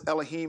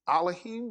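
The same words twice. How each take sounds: First: The word begins with an 'eh' vowel. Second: The word begins with an 'ah' vowel. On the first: The speaker calls it wrong. "they pronounce it Elohim" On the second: The speaker calls it right. "It's actually it's it's it's Elohim because you have the the the Aleph character first"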